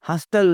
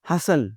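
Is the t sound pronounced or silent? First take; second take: pronounced; silent. First: The t sound is pronounced. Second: The t sound is silent. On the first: The speaker calls it wrong. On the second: The speaker calls it right.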